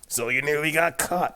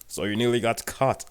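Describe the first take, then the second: First: The character voice is pitched higher. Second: The character voice is pitched lower. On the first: The speaker calls it right. "That's better" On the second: The speaker calls it wrong. "His voice is a lot higher than that"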